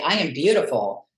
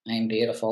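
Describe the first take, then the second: First: It sounds sure and convinced. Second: It sounds hesitant and unconvinced.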